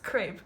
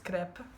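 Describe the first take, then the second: First: The word is pronounced the English way. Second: The word is pronounced the Italian way. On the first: "in English it's crepe" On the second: "apparently it's crepe"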